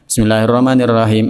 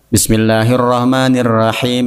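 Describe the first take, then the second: First: It is read fast with word-final vowels dropped. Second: It is read fast with word-final vowels pronounced. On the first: The speaker calls it wrong. "Ini salah mutlak" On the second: The speaker calls it right. "Ini ujung-ujung harokat harus dibaca"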